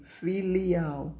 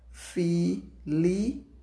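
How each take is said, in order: First: Said in the usual way. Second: "filial" split into syllables, fi-li-al, rising at the end; syllables separated. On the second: Shown as a demonstration. Teacher dictating to the class, "filial" syllable by syllable. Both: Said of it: "embaixo separar a sílaba".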